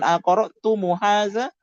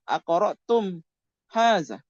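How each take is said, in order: First: The m is followed by a short u vowel. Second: The m stays silent with no vowel. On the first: The speaker calls it wrong. "Jadi bukan aqra'tumu haza" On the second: The speaker calls it right. "Itu tetap aqra'tum haza"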